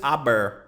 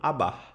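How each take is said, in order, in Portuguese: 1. O R final é pronunciado claramente. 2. O R final é quase silencioso. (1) "Você não diz aber, não" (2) "o R ele é bem suavizado, quase imperceptível"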